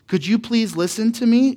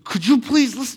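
First: It is said in an even, relaxed tone. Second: It is said tensely through gritted teeth. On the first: The parent is patient with the child. "you're saying it in a calm tone" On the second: The parent is frustrated with the child. "that tone where you're, like, gritting your teeth"

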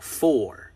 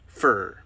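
First: It is said fully, as spelled, 'for'. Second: It is reduced to 'fur'. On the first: "you can pronounce the way that they are spelled" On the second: "is pronounced as fur"

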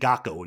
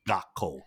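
First: The k sound is short, with no break. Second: A brief break comes before the k sound. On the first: The speaker calls it wrong. "it sounds like you could say gakko and get away with it, but you can't" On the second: The speaker calls it right. "put a separation between the two of them"

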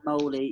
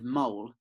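First: It sounds like the ending of guacamole. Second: It sounds like the animal name mole. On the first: The speaker calls it right. "like, yeah, guacamole" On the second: The speaker calls it wrong. "obviously not a mole"

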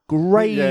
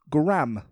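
First: The name is said the British way. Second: The name is said the American way. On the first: The speaker calls it right. "America, it's Graham" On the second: The speaker calls it wrong. "Not Graham"

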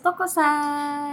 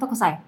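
First: The 'a' vowel is held long. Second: The 'a' vowel is short. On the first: The speaker calls it right. "Ngomongnya harus Tokosai. ... A-nya dua" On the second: The speaker calls it wrong. "Kalau cuma Tokosai nggak bisa"

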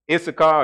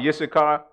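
First: The name is pronounced in its English form. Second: The name is pronounced in its Hebrew form. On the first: "how you say it in the English?" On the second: "Now I'm saying it in Hebrew"

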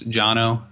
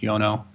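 First: The name begins with a J sound. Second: The name begins with a Y sound. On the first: This is how most people say the name. The speaker calls it wrong. "most people refer to him as Jono" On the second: This is the believed correct pronunciation. The speaker calls it right. "I think it's pronounced Yono"

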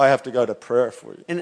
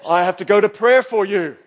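First: It is said grudgingly, without a smile. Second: It is said cheerfully, with a smile. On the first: Praying for them is a burden. The speaker calls it wrong. "I didn't go" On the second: Praying for them is a joy. The speaker calls it right. "Notice I said that with a smile"

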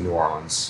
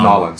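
First: The city name is said the local way. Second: The city name is squeezed into Cajun 'Nolans'.

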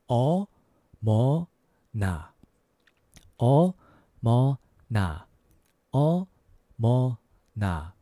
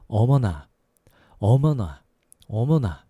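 First: It is said at a slower pace. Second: It is said at a faster pace.

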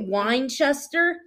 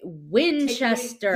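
First: The first syllable sounds like 'wine'. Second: The first syllable sounds like 'win'. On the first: The speaker calls it wrong. "Say it, but without it sounding like wine" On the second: The speaker calls it right. "Yeah, there you go"

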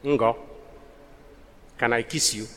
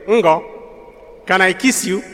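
First: It is said softly. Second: It is said a little louder.

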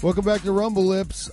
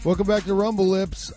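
First: It is said in a put-on presenter voice. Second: It is said in a put-on presenter voice.

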